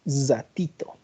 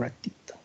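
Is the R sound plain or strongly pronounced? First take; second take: strong; plain. First: The R sound is strong and hissing. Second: The R sound is plain and light. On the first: This is how a speaker from La Paz says it. "Es mucho más pronunciada" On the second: This is how a speaker from Cochabamba says it. "¿Cómo pronuncia la R?"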